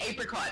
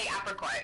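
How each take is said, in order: First: It is said with an Australian pronunciation. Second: It is said with an American pronunciation. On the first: "Australians say apricot" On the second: "Americans say apricot"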